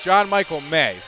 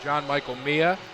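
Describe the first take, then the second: First: The last name sounds like May. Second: The last name sounds like Mia. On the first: The speaker calls it right. "But it's John Michael May" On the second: The speaker calls it wrong. "We've been calling him John Michael Mia"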